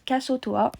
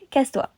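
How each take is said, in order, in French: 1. Il est prononcé lentement, syllabe par syllabe. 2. Il est prononcé vite, les syllabes enchaînées.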